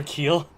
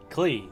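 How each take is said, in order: First: Klee misread as "Keel"; mispronounced name. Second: "Klee" with K and L together; corrected name. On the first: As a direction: say "Keel", vowel before the L. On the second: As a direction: say "Klee", ending on the ee. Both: Real, not acted. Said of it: "I always say it wrong".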